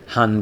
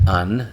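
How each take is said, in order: First: The word begins with an h sound. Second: The h sound at the start is dropped. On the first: "Han becomes An" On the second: "Han becomes An"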